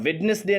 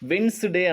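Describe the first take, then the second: First: The d sound is clearly pronounced. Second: The d sound is left out. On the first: The speaker calls it wrong. "రెండవ అక్షరం డి అనేది స్పష్టంగా మనం అక్కడ ఉచ్చరించామన్నమాట" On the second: The speaker calls it right. "యాక్చువల్గా ఏమనాలి అంటే వెన్స్డే అనాలి"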